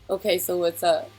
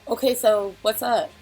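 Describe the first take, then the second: First: It is said in his natural voice. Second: It is said in a made-up voice.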